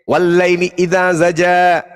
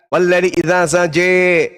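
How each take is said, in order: First: The final vowel sounds like 'ah'. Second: The final vowel sounds like 'eh'.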